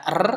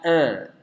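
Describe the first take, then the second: First: "r" rolled on the tongue tip; Indonesian trilled R. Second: "er" as a smooth untrilled English r. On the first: Teacher contrasting Indonesian with English, rolled R. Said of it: "kalau di bahasa Indonesia kita baca r". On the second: Teacher contrasting English with Indonesian, untrilled R. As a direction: curl the tongue for "er", no trill. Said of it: "kalau di bahasa Inggris dibaca er". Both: Shown as a demonstration.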